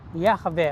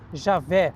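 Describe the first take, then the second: First: The name is said in its non-Portuguese form. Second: The name is said in a Portuguese-adapted form.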